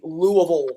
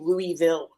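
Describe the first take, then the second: First: It uses the local pronunciation of the name. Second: It uses an outsider pronunciation of the name. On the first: The speaker calls it right. "you have to say Louisville" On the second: The speaker calls it wrong. "You can't say Louisville or they'll look at you weird"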